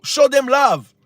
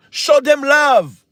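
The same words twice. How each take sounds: First: Said in the usual way. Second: Insistent plea, word by word; slow emphatic repeat. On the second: Real, not acted. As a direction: Show them love slowed right down and a bit louder.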